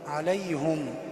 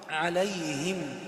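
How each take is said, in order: First: The h is followed by a u vowel. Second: The h is followed by an i vowel. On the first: The speaker calls it wrong. "فهنا وقع في خطأ، وهو ضم الهاء" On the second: The speaker calls it right. "والهاء هنا مكسورة"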